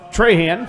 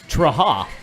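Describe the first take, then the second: First: The final N sound is fully pronounced. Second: The final N sound is dropped. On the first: The speaker calls it wrong. "it was Trahan for a little bit" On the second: The speaker calls it right. "you don't really say the N"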